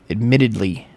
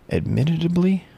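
First: "Admittedly" said cleanly in four even syllables; "Admittedly" pronounced right, proud; clean try. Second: "admittedly" tripped on, pitched high in a struggle; "admittedly" mangled with a strained high start; stumbling try. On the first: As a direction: finally land "Admittedly" smoothly. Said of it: "Boom. Nailed it". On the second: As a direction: fumble over "admittedly". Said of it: "Why can't I say that word?". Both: Shown as a demonstration.

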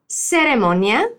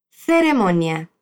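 First: "Ceremonia" with the first sound as a plain s, Latin American; slow "Ceremonia" with a plain s. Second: "Ceremonia" with the first sound as th, tongue between the teeth; slow "Ceremonia", th like Spain; Castilian theta. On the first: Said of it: "Puedes hablar con el sonido de la S". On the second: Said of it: "con la lengua entre los dientes". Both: Shown as a demonstration.

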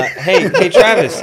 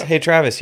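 First: High, loud call across the car; loud call for Travis. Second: Calling his name through a laugh; laughing call for Travis. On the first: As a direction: shout his name to get his attention. Calling out to Travis. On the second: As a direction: call him again, giggling. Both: Real, not acted.

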